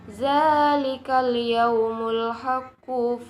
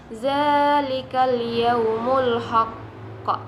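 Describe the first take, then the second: First: The final word links on into the next phrase. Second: The recitation stops on a clipped final word.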